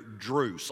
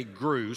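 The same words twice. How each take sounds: First: "Druce" with a D sound in place of the G of Gruss; childhood mispronunciation. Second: Said in the usual way. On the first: Shown as a demonstration. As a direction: say "Druce", opening on DR instead of GR. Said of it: "I couldn't say Gruss, so she wrote". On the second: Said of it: "I couldn't say Gruss".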